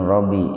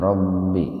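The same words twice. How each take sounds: First: The b sound is short and single. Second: The b sound is doubled and held. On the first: The speaker calls it wrong. "jangan Robbi" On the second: The speaker calls it right. "ba-nya itu ditasdid"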